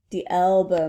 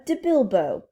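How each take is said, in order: First: "elbow" clearly said, with no b at the front; corrected elbow. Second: Put-on "bilbo" said for elbow, French-accented; mispronounced elbow. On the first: Acted. Alice correcting the princess, "elbow" said clearly. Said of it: "I forget it". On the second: Princess getting elbow wrong, as "bilbo". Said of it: "De elbow, madam".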